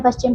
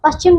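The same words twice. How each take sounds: First: पश्चिम with a proper SH; correct pronunciation. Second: पश्चिम with S for SH, higher; mispronounced word. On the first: Teacher corrects the word for pupils, properly pronounced. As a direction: say पश्चिम as "pash-chim". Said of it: "इस प्रकार से लिखते हैं". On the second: Teacher shows pupils the wrong word, mispronounced. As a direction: say पश्चिम as "pas-chim". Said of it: "नहीं बच्चों". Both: Shown as a demonstration.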